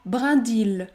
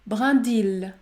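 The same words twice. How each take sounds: The two takes are said the same way.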